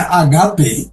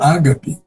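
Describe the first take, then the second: First: The stress is on the second syllable. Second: The stress is on the first syllable. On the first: The speaker calls it right. "que é agape" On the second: The speaker calls it wrong. "e não agape"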